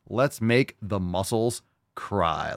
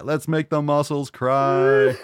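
First: Said in the usual way. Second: Slow, loud, laughing war cry; hyped repeat. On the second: Shown as a demonstration. Host repeats the fan's slogan as a slow, loud, laughing war cry. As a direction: roar it with glee. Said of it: "repeats the line himself".

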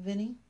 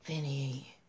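First: Mocking rising Vinny?; sarcastic. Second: Weary, low sighed Vinny; sighing. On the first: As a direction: tease the name with a sly edge. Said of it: "an edge of sarcasm in her voice". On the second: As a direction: let the name out on a tired sigh. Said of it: "she sighed". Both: A narrator's reading.

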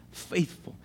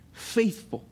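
First: Faithful breathed out unvoiced, almost a whisper; hushed echo. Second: Said in the usual way. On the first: Shown as a demonstration. Preacher echoing faithful to the congregation in a near whisper. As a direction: let faithful fall away to a breath. Preacher repeats the word softly.

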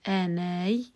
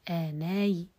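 First: آناي closed on a y glide after long aa; pure sukun. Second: آناي with a faint short i at the end; rawm. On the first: Teacher demonstrates pausing by spelling, pure sukun ending. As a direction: say آناي with no vowel after the final y. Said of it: "بالسكون المحض". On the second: Teacher shows the other form, rawm on final ya. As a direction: say آناي as "aanaayi", a trace of kasra. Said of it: "برومها". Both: Shown as a demonstration.

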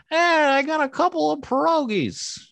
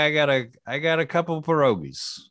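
First: Very high, strange squeaky voice; weird voice. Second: Much higher, strained try at a voice; high-pitched character voice. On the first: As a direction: go as weird as you can. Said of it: "I would just go weird, weird". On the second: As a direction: squeak it out like a hawker. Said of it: "I don't know if I can do it". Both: Shown as a demonstration.

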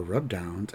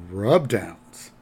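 First: Said in the usual way. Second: "rub downs" drawn out with a swoop on "rub"; suggestive stress on RUB. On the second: Retold or imitated. Director hinting at pricier treatment, suggestive stress on "rub". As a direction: lean knowingly on "rub" in "rub downs". Second take, insinuating contrast.

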